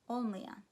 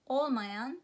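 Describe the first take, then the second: First: The word is said in a casual colloquial form. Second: The word is said in its full careful form.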